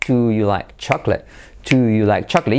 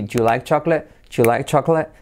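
First: "Do you like" joined in one flow, both words kept; smooth linked "Do you like chocolate"; all linked. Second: "Do you" shrunk to "ju"; contracted. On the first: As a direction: glide "Do you" into "like CHAK-let". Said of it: "a aprender a unirlo todo". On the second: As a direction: say "Ju like CHAK-let" quickly as one unit. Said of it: "además contraerlo así". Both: Shown as a demonstration.

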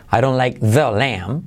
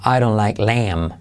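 First: Stressed "the" in like the lamb, rising; wrong version with THE. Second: Said in the usual way. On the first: Shown as a demonstration. Teacher shows what wouldn't be said, THE stressed. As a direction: lean on the, rise at lamb. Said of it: "No se diría".

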